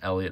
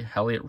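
First: The first H sound is silent. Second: The first H sound is pronounced. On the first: The speaker calls it right. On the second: The speaker calls it wrong.

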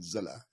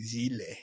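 First: The name ends with an 'ah' sound. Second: The name ends with a long 'ile' sound. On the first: The speaker calls it right. "It's actually Zilla" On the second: The speaker calls it wrong. "they keep saying Zile"

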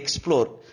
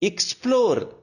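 First: The first syllable sounds like 'ek'. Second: The first syllable sounds like 'ik'. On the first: The speaker calls it wrong. "not explore" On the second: The speaker calls it right. "either ik or ig"

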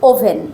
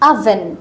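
First: The first vowel is a rounded o sound. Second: The first vowel is an open uh sound. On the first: The speaker calls it wrong. "সাধারণত আমরা বলি ওভেন" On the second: The speaker calls it right. "তখন প্রোনাউন্সিয়েশনটা হবে আভেন"

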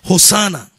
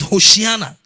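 First: It is pronounced the Greek way. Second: It is pronounced the Hebrew way. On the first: "Hosanna in the Greek, they say" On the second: "according to the Hebrews, they pronounce it"

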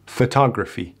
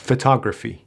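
The two takes are said the same way.

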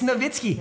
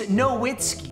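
First: The w is pronounced as a v sound. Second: The w is pronounced as an English w sound. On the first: The speaker calls it right. "If you pronounce it right" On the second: The speaker calls it wrong. "If you pronounce it like an American moron and pronounce it wrong"

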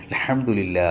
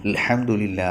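No difference in how they are said.

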